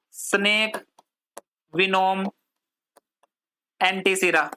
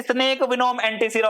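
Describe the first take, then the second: First: One word at a time, long pauses; slow dictation. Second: Said in the usual way. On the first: Shown as a demonstration. Teacher giving students a heading to write, paused dictation. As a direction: dictate it word by word, leaving writing gaps.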